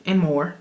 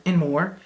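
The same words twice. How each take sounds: The two takes are said the same way.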